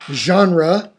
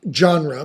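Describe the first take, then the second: First: Genre begins with a soft zh sound. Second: Genre begins with a hard j sound. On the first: The speaker calls it right. "but genre, ... that "j" sound is a Z" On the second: The speaker calls it wrong. "not genre"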